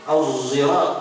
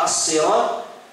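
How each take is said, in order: First: The word begins with a voiced z sound. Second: The word begins with an emphatic, heavy s sound.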